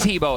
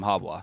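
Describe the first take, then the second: First: The name ends with a 'bo' sound. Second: The name ends with a 'bwa' sound. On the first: The name is said casually when he is not played. "he's Hebo again" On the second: The name is said with respect when he is played. "the casters stop calling him Habwa"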